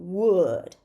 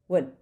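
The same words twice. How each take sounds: First: The word is said with a full vowel. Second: The word is said with a reduced vowel. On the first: "Would is the strong form" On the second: "But the weak form is going to be would"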